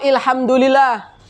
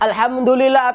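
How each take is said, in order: First: The word begins with an 'i' vowel. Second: The word begins with an 'a' vowel. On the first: The speaker calls it wrong. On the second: The speaker calls it right.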